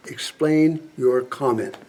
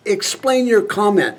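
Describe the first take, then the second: First: Slow and deliberate, word by word; slow, firm demand. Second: Higher-pitched, incredulous challenge; exasperated demand. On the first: General pressing a senator for an answer, slow firm demand. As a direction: spell out the demand with controlled patience. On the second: General challenging a senator over bombing Russia, exasperated demand. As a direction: demand an answer in a raised pitch. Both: Acted.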